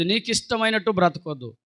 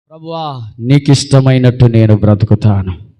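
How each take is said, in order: First: Said in the usual way. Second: Loud low vow. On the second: Acted. Preacher voicing the believer's vow to God, loud and low.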